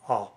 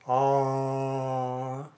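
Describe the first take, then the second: First: The vowel is cut short. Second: The vowel is held long. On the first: "a Japanese sound is basically a short sound" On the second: "An English sound can be made long"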